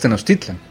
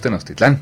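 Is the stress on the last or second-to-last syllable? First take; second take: second-to-last; last. First: The stress is on the second-to-last syllable. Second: The stress is on the last syllable. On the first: The speaker calls it right. "Es Tenochtitlan" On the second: The speaker calls it wrong. "No es Tenochtitlán"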